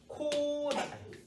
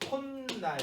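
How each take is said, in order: First: The first syllable ends in a vowel. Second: The first syllable ends in an n sound.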